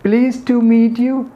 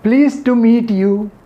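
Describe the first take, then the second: Both takes have the same delivery.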